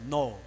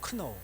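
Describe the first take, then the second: First: It starts with an n sound, no k. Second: It starts with a k sound before n.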